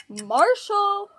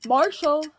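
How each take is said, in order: First: Calling out. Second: Said in the usual way. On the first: Acted. Calling Marshall a second time.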